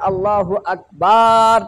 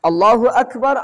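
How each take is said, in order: First: The vowel in akbar is drawn out long. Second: The vowel in akbar is kept short. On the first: The meaning changes to something blasphemous. The speaker calls it wrong. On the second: God is the greatest. The speaker calls it right.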